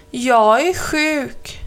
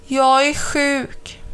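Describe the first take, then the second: First: Slow whiny mock-sick voice; slow fake sick. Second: Slow, sorry-for-herself voice; slowly. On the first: Crow faking illness to Mamma Mu, slow whine. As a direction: drag it out, pretending to be ill. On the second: Mamma Mu telling crow she's sick, slow and pitiful. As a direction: drag it out, feeling poorly. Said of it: "sa Mamma Mu sakta". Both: A narrator's reading.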